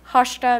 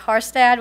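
First: The name is said with a Norwegian accent. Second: The name is said with an American accent.

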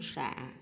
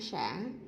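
First: The syllable has a short, heavy low tone. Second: The syllable has a broken, glottalized rising tone. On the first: "nặng" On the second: "ngã"

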